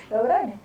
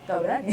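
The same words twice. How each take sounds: The two takes are said the same way.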